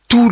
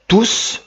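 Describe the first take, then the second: First: The final S sound is silent. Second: The final S sound is pronounced. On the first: The word is used as an adjective. "je ne le prononce pas" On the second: The word is used as a pronoun. "je prononce le S"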